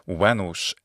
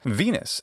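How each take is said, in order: First: It uses the classical Latin pronunciation. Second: It uses the English pronunciation. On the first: "in Latin" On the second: "in English"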